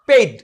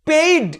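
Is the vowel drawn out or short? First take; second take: short; drawn out. First: The vowel is kept short. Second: The vowel is stretched out long. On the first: The speaker calls it right. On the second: The speaker calls it wrong.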